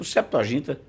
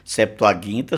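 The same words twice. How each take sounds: First: The g is pronounced as a soft sound. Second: The g is pronounced as a hard sound. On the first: This is the Portuguese pronunciation. "já que estamos falando em português" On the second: This is the classical Latin pronunciation. "porque o G no latim também tem o, C, o, o, o som duro"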